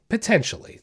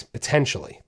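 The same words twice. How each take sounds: First: Potentially said again, pitched higher with weight; stressed repeat. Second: Said in the usual way. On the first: Shown as a demonstration. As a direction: lift Potentially up to drive it home.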